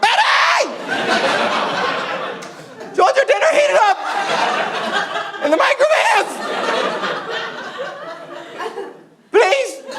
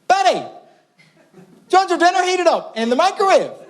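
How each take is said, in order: First: It is shouted very loudly. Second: It is called a little louder.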